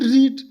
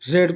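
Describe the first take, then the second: First: The vowel is long, like 'reed'. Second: The vowel is short, like 'red'. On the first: The speaker calls it wrong. "और sorry यहाँ पर that can not be" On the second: The speaker calls it right. "रेड उच्चारण पढ़ेंगे"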